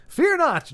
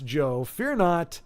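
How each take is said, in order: First: Slow, higher, drawn-out fear not; mock-grand reassurance. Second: Gentle reassurance. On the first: Reassuring viewer Joe with a slow, mock-grand proclamation. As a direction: proclaim it like a herald, slowly. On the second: Real, not acted. Reassuring viewer Joe that he need not worry, slow and gentle. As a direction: ease it down calmly to Joe.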